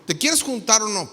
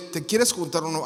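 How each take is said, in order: First: Mildly annoyed acted text message. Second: Said in the usual way. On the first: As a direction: put a touch of irritation in the question. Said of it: "Pero ya enojado". (un poco enojado) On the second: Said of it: "lo lee".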